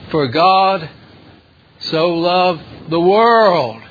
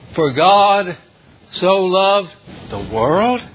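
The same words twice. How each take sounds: First: The word 'world' is strongly emphasized. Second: The word 'world' is not strongly emphasized. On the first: It highlights how great the world is. The speaker calls it wrong. "they emphasize the greatness of the world" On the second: It highlights that the world is sinful and wicked. The speaker calls it right. "It should be stated like this"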